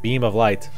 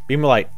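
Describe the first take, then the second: First: The phrase is said slowly and calmly. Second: The phrase is said fast and hurriedly. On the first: "keep calm and be like" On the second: "if I'm saying it quickly"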